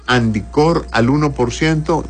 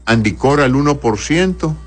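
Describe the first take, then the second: No difference in how they are said.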